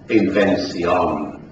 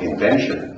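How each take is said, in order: First: It is said in a 1600s English accent. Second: It is said in a modern English accent.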